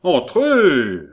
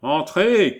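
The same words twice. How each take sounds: First: Very loud, high, drawn-out call; emphatic, impatient summons; more emphatic nasal shout. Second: High, loud nasal call; acted nasal voice shouting from within. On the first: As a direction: call out insistently through the nose. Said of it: "avec un accent plus prononcé". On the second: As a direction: call out through the nose. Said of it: "cria une voix nasillarde". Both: A narrator's reading.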